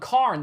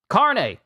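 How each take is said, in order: First: The name ends on the consonant, no final vowel. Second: The name ends with a clearly pronounced final vowel. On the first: The speaker calls it wrong. "I've been calling him Carn this whole time" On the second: The speaker calls it right. "his name is Carne, like chili con carne"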